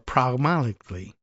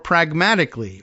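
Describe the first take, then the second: First: The word is said without a hard G sound. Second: The word is said with a hard G sound.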